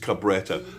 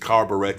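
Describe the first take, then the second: First: It is said with three syllables, ca-bre-tta. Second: It is said with four syllables, like carburettor. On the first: The speaker calls it right. "It's Cabretta" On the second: The speaker calls it wrong. "I was used to pronounce it Carburettor, but it's not"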